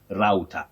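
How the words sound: It is said with an American pronunciation. "But in American English, we have router"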